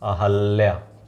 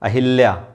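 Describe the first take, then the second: First: The second syllable has an a vowel. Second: The second syllable has an i vowel. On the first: The speaker calls it right. "अहल्या होता है, गलत ना करिएगा" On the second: The speaker calls it wrong. "अशुद्ध तो हम नीचे लिखे हैं यहाँ"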